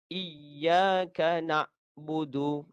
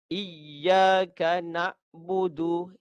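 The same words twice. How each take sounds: Both takes have the same delivery.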